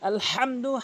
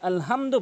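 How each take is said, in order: First: The h is made deep in the throat. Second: The h is a plain light breath sound. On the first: The speaker calls it right. "হাটি হরকের মাঝখান থেকে উচ্চারণ করে বলবেন" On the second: The speaker calls it wrong. "অধিকাংশ লোক আলহামদু বলে, যার কারণে নামাজ ভেঙে যায়"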